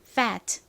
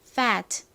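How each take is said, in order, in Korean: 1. 천천히 말하면 마지막 t를 분명히 터뜨려요. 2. 천천히 말하면 마지막 t를 분명히 터뜨려요.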